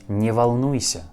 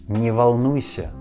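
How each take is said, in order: No difference in how they are said.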